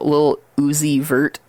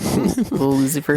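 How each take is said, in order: First: The name is said at a normal pace. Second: The name is said quickly, running together.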